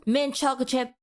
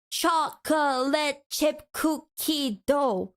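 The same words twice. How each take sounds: First: "mint chocolate chip" rattled off in one go; quick and easy. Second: "chocolate chip cookie dough" dragged out slowly; syllable by syllable. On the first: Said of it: "you said that so freaking quickly". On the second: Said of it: "seven syllables". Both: Shown as a demonstration.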